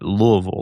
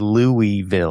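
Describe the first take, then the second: First: The name is slurred and swallowed together. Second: The name is said with clear separate syllables. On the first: This is how locals say it. The speaker calls it right. "The correct way to say Louisville ... like you're swallowing your tongue" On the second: This is how outsiders say it. The speaker calls it wrong. "outside of this area, folks might say"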